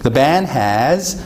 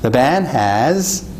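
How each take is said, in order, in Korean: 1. "has"의 끝소리는 유성 z예요. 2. "has"의 끝소리는 유성 z예요.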